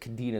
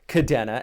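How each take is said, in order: First: The second vowel sounds like 'ee'. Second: The second vowel sounds like 'eh'. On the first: The speaker calls it wrong. "the E here on Kadena would be an I if you pronounced it Kadena the way I noticed uh, a lot of the military pronounces it" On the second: The speaker calls it right. "it is pronounced Kadena"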